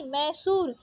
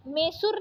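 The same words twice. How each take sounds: First: Said in the usual way. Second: मैसूर said "me-sur", closed e; wrong vowel. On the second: Shown as a demonstration. Teacher rejecting a spelling, मैसूर with plain e. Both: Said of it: "मैसूर नहीं".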